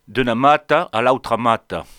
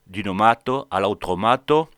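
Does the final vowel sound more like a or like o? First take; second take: a; o. First: The final vowel sounds between a and e. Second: The final vowel sounds like o. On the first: "am un son final entre lo A et lo E" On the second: "prononcia pas"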